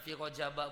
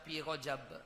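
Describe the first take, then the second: First: The word ends with a short a vowel. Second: The word ends on b with no vowel. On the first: The word is treated as not taking nunation. "Dibaca Rajaba, baca fathah" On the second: It avoids taking either side of the dispute. "Nak baca Rajab boleh disukunkan"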